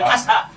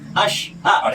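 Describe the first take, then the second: First: The middle consonant is a plain s sound. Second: The middle consonant is an sh sound. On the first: The speaker calls it wrong. "bukan asha" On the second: The speaker calls it right. "Syahadat pun seperti itu"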